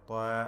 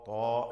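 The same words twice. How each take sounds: First: The t and vowel sound light and thin. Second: The t and vowel sound heavy and thick. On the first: The speaker calls it wrong. "അല്ല" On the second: The speaker calls it right. "തഫ്ഖീം ചെയ്ത് പെരുപ്പിച്ച്"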